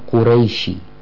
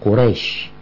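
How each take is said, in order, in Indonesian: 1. Kata ini tidak berakhir dengan bunyi sh. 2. Kata ini berakhir dengan bunyi sh yang jelas. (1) "ini bukan orang-orang Quraisy" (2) "Quraisy karena pakai shin"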